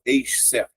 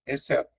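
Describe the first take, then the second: First: EXCETO with a hushing sound, as "eish-seto"; wrong pronunciation demo. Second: EXCETO with a single S sound, as "esseto"; correct pronunciation demo. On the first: Teacher shows what you don't say, EXCETO with two sounds for XC. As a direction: split "exceto" into an SH followed by an S. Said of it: "você não fala exceto". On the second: Teacher shows it is a single sound, EXCETO as "esseto". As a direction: say the XC of "exceto" as one soft S. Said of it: "É um único som". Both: Shown as a demonstration.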